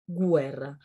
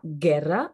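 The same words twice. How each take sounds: First: The g is followed by a w sound. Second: The g is hard with no w sound. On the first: The speaker calls it right. "mais on dit guerra / on prononce toutes les lettres" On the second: The speaker calls it wrong. "on ne dit pas"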